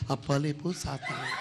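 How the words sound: It sounds weak and feeble, like a film Jesus.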